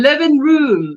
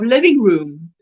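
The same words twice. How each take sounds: First: LIVING said as livin', with no final G; LIVING ending in a plain N; Texan dropped G. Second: Said in the usual way. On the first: Shown as a demonstration. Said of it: "I'm saying you're all fixing too". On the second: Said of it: "instead of living room".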